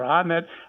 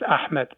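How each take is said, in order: First: The name has an English-style pronunciation. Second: The name has its original Arabic pronunciation. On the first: A non-native speaker is trying their best. "if you say" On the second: This is how the name is really said. "My name is"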